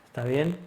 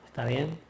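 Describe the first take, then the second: The two takes are said the same way.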